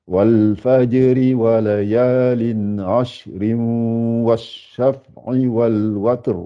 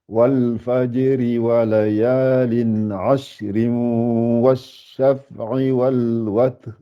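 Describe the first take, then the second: Both takes have the same delivery.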